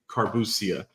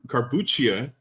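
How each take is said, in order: First: The middle consonant sounds like 's'. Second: The middle consonant sounds like 'ch'. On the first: This is how the Dominican family says it. "me being born in Dominican Republic... we say carbuccia" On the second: This is the formal Italian pronunciation. "the technical way"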